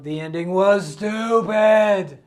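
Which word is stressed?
stupid. The stress falls on the word stupid. The ending was really very bad. "It was really not a very good"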